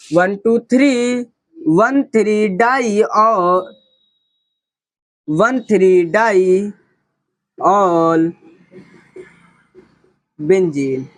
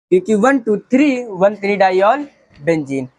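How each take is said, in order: First: Slow, deliberate counting; very slow dictation. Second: Said in the usual way. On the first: Shown as a demonstration. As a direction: drag out each number slowly. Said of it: "teacher spells out locants very slowly". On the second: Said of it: "same name at normal pace".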